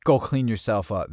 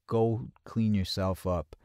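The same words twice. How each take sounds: First: Retold brisk order. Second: Retold slow insistence. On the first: Friend's first order to wash. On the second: Friend insists, repeating the order.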